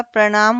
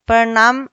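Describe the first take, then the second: First: प्रणाम as "pra-naam"; p and r joined in प्रणाम; correct cluster. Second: प्रणाम as "par-naam"; vowel before the r in प्रणाम; wrong split cluster. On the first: Teacher corrects प्रणाम, joined "pranaam". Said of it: "प्रणाम होता है". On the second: Teacher shows wrong प्रणाम, said "parnaam". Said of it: "नहीं होता". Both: Shown as a demonstration.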